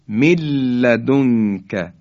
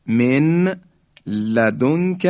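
First: من لدنک joined as "milladunka", no n in من; nun merged into lam. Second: من لدنک as two words, n of من sounded, من raised; unmerged nun. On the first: Teacher demonstrating the merger, nun lost in doubled lam. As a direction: hold a doubled l through من لدنک. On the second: Teacher gives the example before merging, nun clearly separate. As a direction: say "min", pause, then "ladunka". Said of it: "یعنی نون ساکن". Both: Shown as a demonstration.

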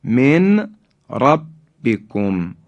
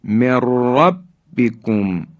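First: من ربکم as min, pause, rabbikum; unmerged nun. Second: من ربکم run together as mirrabbikum; slow recitation, long trilled r in من ربکم; nun merged into ra. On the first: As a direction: keep من apart from ربکم. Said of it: "نون ساکن در حرف". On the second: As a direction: drop the n of من, roll into ربکم. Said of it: "را ادغام شد". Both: Shown as a demonstration.

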